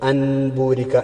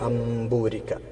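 First: The nasal before b is a clear n. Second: The nasal before b becomes a nasalised m. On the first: The speaker calls it wrong. "അൻബൂരിക്ക എന്ന് പറയില്ല" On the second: The speaker calls it right. "ആ നൂനനെ മീമാക്കി മറിച്ചിട്ട്"

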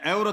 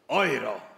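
First: The word is said with a plain Polish sound. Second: The word is said with a German-like sound. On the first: The speaker calls it wrong. "Nie euro" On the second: The speaker calls it right. "Przecież to brzmi prawie jak Hände hoch"

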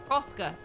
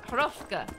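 The two takes are said the same way.

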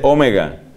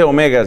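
First: The stress is on the first syllable. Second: The stress is on the second syllable. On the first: The speaker calls it right. "se dice omega. Así como se dice omicron" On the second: The speaker calls it wrong. "No se dice omega"

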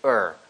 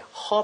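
First: The h sound at the start is dropped. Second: The h sound at the start is clearly pronounced. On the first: "H가 많이 사라집니다" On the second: "her보다는"

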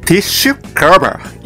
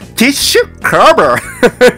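First: The word is said in a plain everyday way. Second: The word is said with exaggerated fancy pronunciation.

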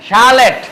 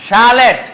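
Both takes have the same delivery.

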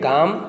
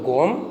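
First: The vowel is an open 'aa' sound. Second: The vowel is a rounded 'o' sound.

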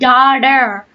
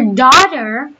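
First: The middle consonant is a soft D sound. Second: The middle consonant is a crisp T sound. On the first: "The Americans replaced it with daughter" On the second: "For daughter, we use T"

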